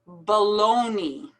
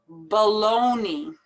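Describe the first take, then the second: No difference in how they are said.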